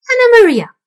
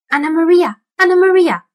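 First: High, loud calling shout; loud rat call. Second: High, loud rat squeak. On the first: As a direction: call her loudly up high. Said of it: "said the old man rat". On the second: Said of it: "squeaked the rat". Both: A narrator's reading.

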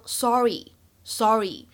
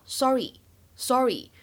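First: "sorry" said the American way, with a longer open o vowel; American English "sorry". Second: "sorry" said the British way, with a short rounded o; British English "sorry". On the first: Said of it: "就会变成". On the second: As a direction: give "sorry" a short clipped British vowel. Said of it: "在英式发音当中呢，我们读作". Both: Shown as a demonstration.

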